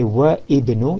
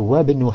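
First: The 'i' of ibnu is pronounced separately. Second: The 'i' of ibnu is dropped and linked. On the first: The speaker calls it wrong. "You don't say wa ibnu" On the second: The speaker calls it right. "you say wa ibnu hamidin fil jami'ati"

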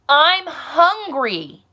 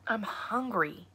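First: It is yelled very loudly. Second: It is said at a normal volume.

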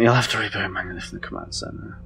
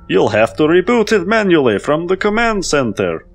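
First: It is said in the speaker's normal voice. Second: It is said in a silly put-on accent.

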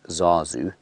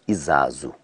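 First: The word starts directly with a z sound. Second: The word starts with a short i vowel. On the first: This is how non-Zulu speakers say it. The speaker calls it wrong. "that's how we people who don't really know how to speak Zulu say it" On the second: This is how Zulu speakers say it. The speaker calls it right. "They say Izazu"

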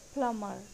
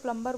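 First: The b sound is silent. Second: The b sound is pronounced. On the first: The speaker calls it right. "It's सही pronunciation है प्लमर" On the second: The speaker calls it wrong. "Mostly लोग इसको प्लम्बर बोलते हैं जो कि गलत है"

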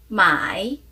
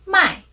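First: The tone dips low, then rises. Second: The tone falls sharply from high. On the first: It means to buy. "사다는 삼성" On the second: It means to sell. "팔다는 사성"

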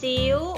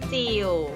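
First: The word is said with a high tone. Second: The word is said with a low tone. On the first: "ถ้าเราลองเติมไม้ตรีลงไปจะเป็นจิ๋ว" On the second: "เติมไม้เอกลงไปจะเป็นจิ๋ว"

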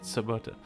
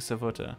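First: The middle consonant is a b sound. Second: The middle consonant is a v sound. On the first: The speaker calls it wrong. "Not Sabota" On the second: The speaker calls it right. "Good morning, Savota"

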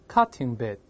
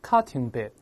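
Both takes have the same delivery.

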